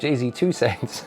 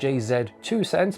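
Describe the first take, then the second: First: The Z is said as American 'zee'. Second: The Z is said as British 'zed'.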